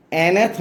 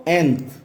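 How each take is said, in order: First: Nth split into two syllables, en-eth; wrong pronunciation. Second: Nth as one syllable, en plus th; no vowel between n and th in nth; correct pronunciation. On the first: Teacher shows what not to say, nth as en-eth. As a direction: put an extra vowel before the th in nth. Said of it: "nth नहीं बोलेंगे". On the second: Teacher gives students the right form, nth in one syllable. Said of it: "क्या बोलना है इसको". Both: Shown as a demonstration.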